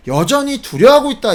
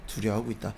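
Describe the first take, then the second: First: "여전히 두려워하고 있다" raised high and loud; emphatic repeat. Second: Low, much softer "두려워하고 있다"; hushed answer. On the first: Preacher pressing the point on the congregation, emphatic. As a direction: drive home "여전히 두려워하고 있다" with raised pitch and force. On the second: Preacher answering his own question to the congregation, hushed. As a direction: drop right down to answer your own question. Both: Real, not acted.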